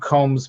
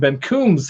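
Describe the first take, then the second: First: The vowel sounds like 'oh' as in home. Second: The vowel sounds like 'oo' as in room. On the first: The speaker calls it wrong. "I don't call him [name]" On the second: The speaker calls it right. "that's how you pronounce it. Two O's"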